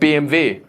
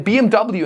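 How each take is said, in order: First: The letters are said with a German accent. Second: The letters are said with an American accent.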